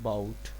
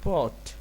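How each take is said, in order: First: The vowel sounds like 'ow' in 'about'. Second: The vowel sounds like 'aw' in 'pot'. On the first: The speaker calls it wrong. "हम बचपन से पढ़ते हुए आ रहे हैं इसको बाउट" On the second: The speaker calls it right. "पॉट not अबाउट"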